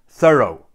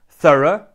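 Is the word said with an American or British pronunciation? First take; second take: American; British. First: It is said with an American English pronunciation. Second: It is said with a British English pronunciation. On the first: "and in American English, it's pronounced thorough" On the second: "In British English, this word is pronounced thorough"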